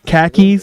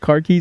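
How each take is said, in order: First: It is said in a Boston accent. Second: It is said in a standard accent.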